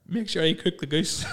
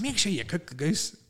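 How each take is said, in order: First: Slow, higher dreamy mumble-style line; husband sleep-talking to his wife, slow and dreamy; mock sleep talking. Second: Slow, higher dreamy repeat; husband repeating his sleep-talk to his wife; mock sleep talking. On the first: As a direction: drag it out like talking in your sleep. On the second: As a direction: drawl it out half-asleep. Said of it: "And I was like".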